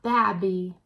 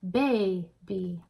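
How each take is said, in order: First: The first vowel is short and clipped. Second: The first vowel is long, like 'ay'. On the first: The speaker calls it wrong. "And it's not babby" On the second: The speaker calls it right. "We say baby"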